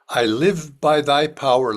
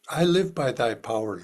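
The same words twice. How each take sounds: First: It is spoken loudly and forcefully. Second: It is spoken at ordinary conversational volume. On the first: "first loudly" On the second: "in a normal speaking voice"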